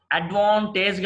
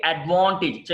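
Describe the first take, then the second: First: అడ్వాంటేజ్ ending in a long "tayj"; mistaken pronunciation. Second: అడ్వాంటేజ్ ending in a short "tij"; correct pronunciation. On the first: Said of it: "అడ్వాంటేజ్ కాదండి". (అడ్వాంటేజ్ చివర "టేజ్" దీర్ఘంగా) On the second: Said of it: "కాదండి". (అడ్వాంటేజ్ చివర "టిజ్" పొట్టిగా) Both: Shown as a demonstration.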